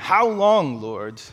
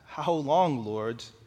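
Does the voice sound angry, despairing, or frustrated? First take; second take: frustrated; despairing. First: It is said in a frustrated tone. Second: It is said in a despairing tone. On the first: The speaker is fed up with waiting. "this is just a cry of frustration" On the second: The speaker has lost hope. "Or despair"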